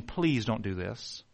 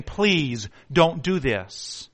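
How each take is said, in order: First: Quiet pleading. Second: Slow pleading. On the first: Family begging him not to shoot. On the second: Friends begging him not to shoot. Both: Acted.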